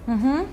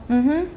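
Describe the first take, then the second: No difference in how they are said.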